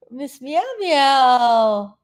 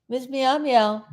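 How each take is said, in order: First: Drawn-out greeting. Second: Said in the usual way. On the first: Real, not acted. Greeting a viewer in the chat, slow and drawn out. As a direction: stretch the name out slowly, sing-song.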